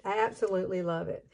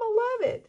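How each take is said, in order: First: Said in the usual way. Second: "I love it" squealed very high and louder; excited squeal. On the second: Real, not acted. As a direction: gush the words "I love it" up high. Gushing over her hair.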